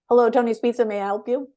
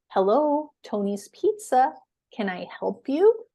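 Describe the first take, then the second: First: It is said very fast. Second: It is said slowly and clearly.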